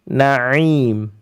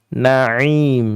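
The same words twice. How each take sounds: Both takes have the same delivery.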